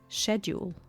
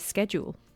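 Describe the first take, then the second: First: It is said with a British pronunciation. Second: It is said with an American pronunciation. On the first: "that's how the Brits say it" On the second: "the Americans um, say schedule"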